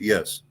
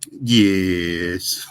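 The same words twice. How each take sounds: First: It is said in the speaker's own plain accent. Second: It is said imitating a southern African accent.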